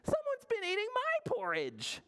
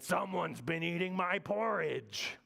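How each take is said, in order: First: It is said in middle bear's voice. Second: It is said in Big Bear's voice.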